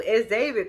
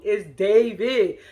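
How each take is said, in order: First: Said in the usual way. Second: Slow, stretched-out name, imitating excitement; mock excited insistence. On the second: Kenya insisting to her friend who it is, mock excited. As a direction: draw out the name like a gushing fan. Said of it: "Kenya's so damn excited".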